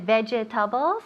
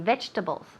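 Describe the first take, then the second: First: The word is said with four syllables. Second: The word is said with three syllables. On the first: The speaker calls it wrong. "instead of vegetables, okay, hay muchas sílabas ahí" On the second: The speaker calls it right. "We take out one syllable en medio ahí. We say vegetables"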